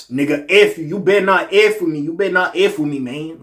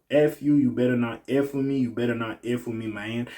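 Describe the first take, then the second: First: Higher, louder put-on Southern rapper accent. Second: Said in the usual way. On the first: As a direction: throw the warning out in a heated, imitated rapper accent. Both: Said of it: "So I gotta do the little X and".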